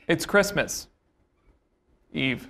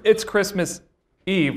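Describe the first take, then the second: First: A clear pause comes before the last word. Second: It runs on with barely any pause.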